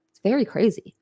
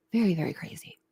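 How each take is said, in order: First: Said in the usual way. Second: A quiet muttered echo to herself; hushed repeat. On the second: Real, not acted. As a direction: let it fall away under her breath. Repeating her point about crazy.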